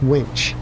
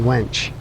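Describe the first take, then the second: First: The vowel sounds like 'ih', as in 'bit'. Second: The vowel sounds like 'eh', as in 'bed'. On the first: The speaker calls it right. "It's winch" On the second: The speaker calls it wrong. "I've been saying that wrong the whole time. I've been saying wench"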